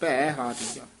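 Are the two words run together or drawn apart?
apart. The two words are drawn out and separated. The speaker calls it right. "ਲਮਕਾ ਕੇ ਬੋਲਣਾ ਹੈ"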